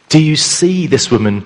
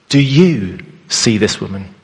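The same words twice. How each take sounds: First: The stress is on the word see. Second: The stress is on the word you.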